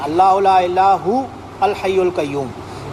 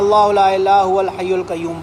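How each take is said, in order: First: There is a stop after 'hu'. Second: The words run together without a stop. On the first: "हु पे रोकें और फिर अल हय्युल क़य्यूम पढ़ लें" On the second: "अगर आप कंटिन्यू कर रहे हैं"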